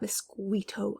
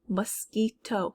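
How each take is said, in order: First: The middle consonant is said with a W glide. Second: The middle consonant is a plain K sound. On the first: The speaker calls it wrong. "it's not mosquito" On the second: The speaker calls it right. "serving as a K sound"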